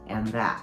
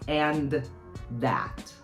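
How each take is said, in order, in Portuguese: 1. As duas palavras são unidas em uma só. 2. As duas palavras são ditas separadamente. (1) "Fica and that. É uma única palavra" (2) "não é mais and that"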